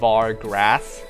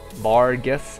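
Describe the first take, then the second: First: An R sound follows the G. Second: No R sound follows the G. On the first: The speaker calls it wrong. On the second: The speaker calls it right.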